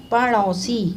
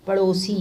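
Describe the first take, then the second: First: पड़ोसी with a long paa; wrong first vowel. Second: Said in the usual way. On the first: Shown as a demonstration. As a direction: say पड़ोसी as PAA-rosi, louder. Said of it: "इनका अशुद्ध रूप क्या है". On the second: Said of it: "फिर शुद्ध रूप क्या है".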